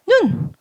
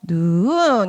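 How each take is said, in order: First: The pitch stays level and the word is short. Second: The pitch starts low, rises, and is longer. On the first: "원래 다른 거는 눈, 눈 하면 되는데" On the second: "이제는 뭐 눈 이렇게 높여야 되기 때문에 길이가 길어질 거야"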